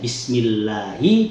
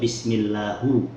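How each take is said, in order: First: The word ends with an i vowel. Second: The word ends with a u vowel. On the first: The speaker calls it right. "harusnya Bismillahi" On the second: The speaker calls it wrong. "Ha atau hu itu adalah lahan"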